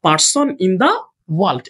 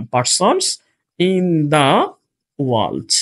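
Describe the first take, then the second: First: Said in the usual way. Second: PERSONS, IN THE, world in separate chunks; drawn-out "Persons in the", pause, world dropped low; slow dictation. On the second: Shown as a demonstration. Dictates words while placing them.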